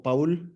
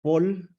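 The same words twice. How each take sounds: First: Paul said the Spanish way, "Pa-ul", two vowels; Paul with an open a then u; Spanish-style name. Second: Paul said as English "Pol", one vowel; Paul rhymes with "ball"; English-style name. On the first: Host unsure of a guest's name, tries Spanish "Pa-ul". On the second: Host unsure of a guest's name, tries English "Pol". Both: Shown as a demonstration. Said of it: "no sé cómo".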